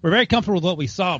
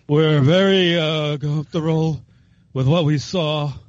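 First: It is said in his normal reading voice. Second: It is said in a slurred, drunk-sounding voice.

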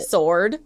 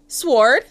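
First: The W sound is silent after the S. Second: The W sound is pronounced after the S.

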